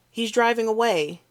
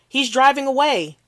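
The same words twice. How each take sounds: First: Said in the usual way. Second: Higher, louder panicked yell; frantic cry to the dispatcher; panicked shout. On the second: Acted. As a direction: shout it out in alarm. Witness panicking on 911 call.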